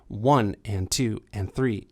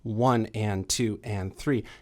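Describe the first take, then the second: First: The beats are split long then short. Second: The beats are split into equal halves. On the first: "I said it with swing" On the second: "So it's not evenly divided. That would be"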